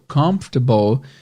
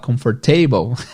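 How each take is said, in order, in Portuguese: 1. A tônica cai no início da palavra. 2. A tônica cai no fim da palavra. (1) "Em vez de dizer confortável, comfortable" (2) "a gente vai falar comfortable"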